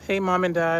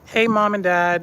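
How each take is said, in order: First: It is said in a low, deep put-on voice. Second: It is said in the speaker's normal voice.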